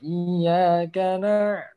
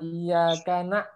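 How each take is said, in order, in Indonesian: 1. Bunyi ain tetap terdengar tanpa henti. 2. Bunyi ain terputus mendadak seperti hamzah. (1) "Jangan terhenti" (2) "jangan iyyaka na'. Nah, itu nyasar nanti ke huruf ... hamzah"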